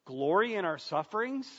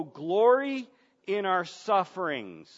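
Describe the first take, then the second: First: "Glory in our sufferings?" as a rising question; incredulous echo. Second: "glory in our sufferings" read out firmly as a statement; emphatic verse reading. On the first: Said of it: "Am I reading this right?". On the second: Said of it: "he says in verse three". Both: Acted.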